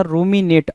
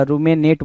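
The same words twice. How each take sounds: First: रूमिनेट said roo-mi-nate, with a clear i in the middle; रूमिनेट with a clear i sound, not e; correct pronunciation. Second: रूमेनेट said roo-me-nate, with an e in the middle; the misspelt रूमेनेट, e instead of i; wrong pronunciation. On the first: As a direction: say रूमिनेट with a clean i in the middle syllable. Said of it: "आर यू M आई बोलना चाह रहा था". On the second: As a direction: show the mistake, रूमेनेट with an e in the middle. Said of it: "बोला है उसने". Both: Shown as a demonstration.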